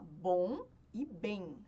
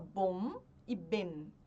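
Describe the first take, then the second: First: The final M is nasal with the mouth open. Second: The final M is closed with the lips. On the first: The speaker calls it right. "você fala bom e bem" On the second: The speaker calls it wrong. "Você não fala bom e bem"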